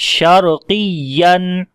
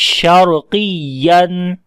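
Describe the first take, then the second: No difference in how they are said.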